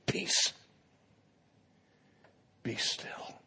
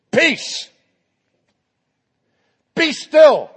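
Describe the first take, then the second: First: Peace, be still whispered, very soft; hushed command. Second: Peace, be still called out loud and high; commanding shout. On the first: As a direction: breathe the command gently like calming a child. Jesus calms storm, quiet retelling. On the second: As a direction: order the wind and sea to stop. Jesus commands the storm. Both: Pretend.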